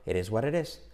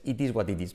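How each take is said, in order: First: "it is what it is" said "eres uarerés"; tapped-T linking. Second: "It is what it is" with hard Ts, Spanish accent; unlinked Spanish-classroom "It is what it is"; Spanish teacher's English. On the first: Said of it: "todo es como este". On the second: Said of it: "Así no se enseñaría un profe de español". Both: Shown as a demonstration.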